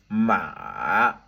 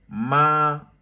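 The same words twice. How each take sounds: First: The pitch falls low then rises again. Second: The pitch stays high and level. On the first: "ça descend en bas et puis ça remonte en haut" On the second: "avec le premier ton, tout droit"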